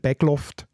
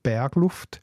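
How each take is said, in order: First: Innerrhodisch accent: the R is dropped. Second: Ausserrhodisch accent: the R is softly vocalized.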